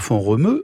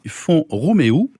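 First: The name ends in a single 'eu' vowel. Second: The name ends in two vowels, 'é' then 'o'. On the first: The speaker calls it wrong. "on ne dit pas font Romeu" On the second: The speaker calls it right. "on dit font Roméo"

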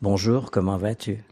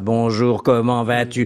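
First: It is said lightly, letting it breathe. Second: It is said with a held, sustained sound.

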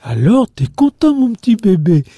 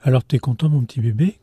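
First: The melody is exaggerated, with large theatrical pitch peaks. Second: The melody is plain, with ordinary pitch movement. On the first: It is spoken as to a baby to catch attention. "on accentue en fait beaucoup la prosodie" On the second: It is spoken as to an older child. "comme on dirait à un enfant de 10 ans ou à un adolescent de 15 ans"

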